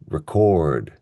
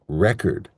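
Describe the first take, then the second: First: The stress is on the second syllable. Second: The stress is on the first syllable. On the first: It is the verb form. "for the verb, we stress the second syllable" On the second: It is the noun form. "in the noun form, we stress the first syllable"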